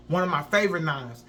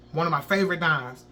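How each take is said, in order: Both takes have the same delivery.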